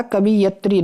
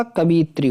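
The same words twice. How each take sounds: First: कवियत्री with an extra 'ya', ka-bi-yat-ri; wrong pronunciation. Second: कवियत्री as ka-beet-ri, no 'ya'; corrected pronunciation. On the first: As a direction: sound out a 'y' inside कवियत्री. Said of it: "नहीं होता". (कवियत्री में 'य' जोड़कर गलत उच्चारण) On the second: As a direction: run कवियत्री together without the 'y'. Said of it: "होता है". (कवियत्री में 'य' हटाकर 'बीत्री' बोलें) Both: Shown as a demonstration.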